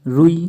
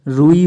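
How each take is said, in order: First: रुई with a quick "ru"; short u. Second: रुई with a long "roo". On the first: Teacher showing the error, short u in रुई. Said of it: "रुई होता है". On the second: Teacher correcting students, long oo in रुई. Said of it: "होता है". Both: Shown as a demonstration.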